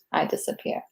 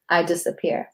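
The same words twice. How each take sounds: First: "I disappear" whispered, much softer, dying away; whispered fade. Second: Soft, trailing spoken-word line; fading recital. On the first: Poet whispers the last line so it disappears. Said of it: "the words kinda start disappearing too". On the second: Poet lets her closing line fade like the written words. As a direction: let the word "disappear" start to fade. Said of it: "the way I wrote disappear". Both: Shown as a demonstration.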